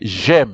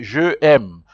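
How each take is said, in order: First: The first vowel is dropped, joining the words. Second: Both vowels are sounded, with a break between. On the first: The speaker calls it right. "You say j'aime" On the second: The speaker calls it wrong. "You don't say je aime"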